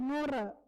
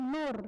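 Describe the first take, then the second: First: The word ends with an added vowel. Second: The word ends in a consonant sound. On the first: This is how a syllabic-language speaker says it. "dia bilang nure, karena memang dia silabik" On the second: This is the standard form. "orang tidak bilang nur"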